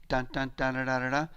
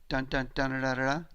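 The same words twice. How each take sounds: No difference in how they are said.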